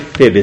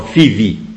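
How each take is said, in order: First: The name is said with Romanian vowels and 'b'. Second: The name is said with Greek 'i' and 'v'.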